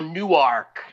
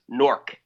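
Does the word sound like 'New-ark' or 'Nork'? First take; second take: New-ark; Nork. First: The word is said as two clear parts, New-ark. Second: The word is squeezed into one sound, like Nork. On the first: This is how it is said in Delaware. The speaker calls it wrong. "Some people go Newark, like Delaware" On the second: This is how locals in New Jersey say it. The speaker calls it right. "This is New Jersey. It's Newark. N-O-R-K"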